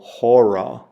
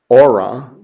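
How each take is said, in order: First: The word begins with an H sound. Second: The word begins directly with a vowel sound. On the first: The speaker calls it right. "you'd go hora" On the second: The speaker calls it wrong. "you wouldn't pronounce this aura"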